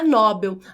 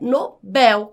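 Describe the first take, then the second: First: The stress is on the first syllable. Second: The stress is on the last syllable. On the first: The speaker calls it wrong. "a pronúncia não é Nobel" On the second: The speaker calls it right. "com a última mais forte"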